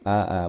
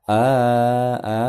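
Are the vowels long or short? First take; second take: short; long. First: The vowels are short and clipped. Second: The vowels are drawn out long. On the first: The speaker calls it right. "nggak boleh dibaca panjang" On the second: The speaker calls it wrong. "bukan a a"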